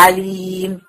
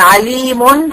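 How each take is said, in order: First: عليم stopped on a vowelless, held "m"; pausal sukun ending. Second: عليم ending in a sounded "-un"; tanween with damma. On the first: Teacher showing a stop on the word, عليم with silent final vowel. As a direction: stretch the long "ii" in عليم, close on bare "m". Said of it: "لو أنا وقفت عليها هتبقى". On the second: Teacher showing the original nunated word, عليم said with "-un" ending. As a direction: say عليم joined on, with a final "-mun". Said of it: "هي أساسًا كانت منونة بالضم". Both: Shown as a demonstration.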